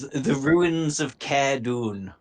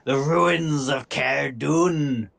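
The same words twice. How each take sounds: First: It is said in the speaker's ordinary accent. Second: It is said in a Scottish accent.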